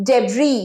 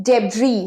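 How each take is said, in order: No difference in how they are said.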